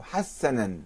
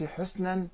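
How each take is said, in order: First: حسنا said hassanan, slowly; حسنا as slow "has-sa-nan"; a vowels. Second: حسنا said husnan; حسنا as "HUS-nan"; u vowel, no doubling. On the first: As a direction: open حسنا with "ha", not "hu". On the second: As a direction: say حسنا with u and a silent s. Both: Shown as a demonstration. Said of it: "في الحركات والشدة".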